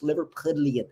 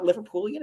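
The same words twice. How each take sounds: First: "Liverpudlian" said with "pud" in the middle; "Liverpudlian", with a d-l in place of "pool"; corrected pronunciation. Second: "Liverpoolian" said with "pool" in the middle; "Liverpoolian", pool-ee-an, as the wrong version; rejected pronunciation. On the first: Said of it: "Is that what you say?". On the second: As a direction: say "Liverpoolian" with an oo, raised in pitch. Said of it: "It's not Liverpoolian". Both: Shown as a demonstration.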